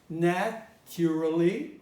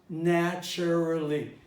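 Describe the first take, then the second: First: The unstressed middle vowel is kept. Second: The unstressed middle vowel is dropped. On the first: This is the older way of saying it. "was pronounced formerly" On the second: This is the current way of saying it. "Now it is pronounced naturally"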